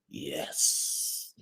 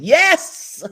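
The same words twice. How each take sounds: First: The word is said low in pitch and slowly. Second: The word is said high in pitch and excitedly. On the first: "low and slow" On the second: "high and excited"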